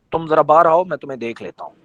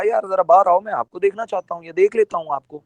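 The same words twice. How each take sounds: First: Mock threat. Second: Quick, casual and friendly; easygoing, quick invitation. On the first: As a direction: say it like a veiled threat. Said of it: "Khilji صاحب نے دھمکی دی ہے". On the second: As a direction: ask him out kindly, no threat. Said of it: "بات کا مطلب ہی بدل گیا". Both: Shown as a demonstration.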